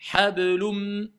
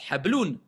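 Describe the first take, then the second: First: The final n merges into an m sound. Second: The word ends with a clear n sound. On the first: "C'est quoi assimilation?" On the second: "On a un à la base"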